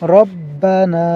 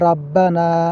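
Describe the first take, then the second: First: The first vowel is a dark, rounded 'o'. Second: The first vowel is an open, bright 'a'. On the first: The speaker calls it right. "বলতে হবে রব্বানা" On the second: The speaker calls it wrong. "আমরা অনেকেই বলি রাব্বানা, রাব্বানা বলা যাবে না"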